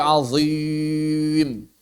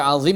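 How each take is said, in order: First: "azim" with the long i made heavy and held; thickened long ya. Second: Said in the usual way. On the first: Shown as a demonstration. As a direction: stretch "azim", keeping the i as thick as the z. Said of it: "ya juga ikut sehingga mereka baca". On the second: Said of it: "mereka baca azim menjadi azim".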